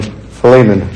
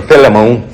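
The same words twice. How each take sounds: First: Philemon with a long middle "lee" and a short "mun" ending; Philemon, common pronunciation. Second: Philemon starting "fell-uh" and ending on a long "moan"; Philemon, alternative pronunciation. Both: Shown as a demonstration. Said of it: "depending on how you want to say".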